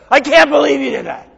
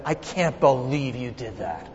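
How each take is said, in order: First: High-pitched mock scolding; retold angry outburst. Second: Low, hushed disbelief, retold; soft, low replay of scolding a son; understated retold reproach. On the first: Father showing what he never said to his son, mock angry outburst. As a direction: replay an exasperated parent's outburst. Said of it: "have I ever been angry at my son?". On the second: Father to son over a bad report card, understated reproach. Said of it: "I yelled at him".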